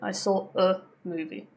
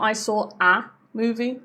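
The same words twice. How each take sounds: First: The word 'a' is reduced to a schwa. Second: The word 'a' has a full vowel. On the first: The speaker calls it right. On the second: The speaker calls it wrong.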